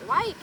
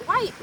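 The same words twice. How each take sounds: The two takes are said the same way.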